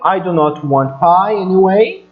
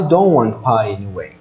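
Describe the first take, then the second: First: Do not is said as two full words. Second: Do not is contracted, its final t dropped. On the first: The speaker calls it wrong. "na fala, eles não vão falar assim" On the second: The speaker calls it right. "você não pronunciar esse T"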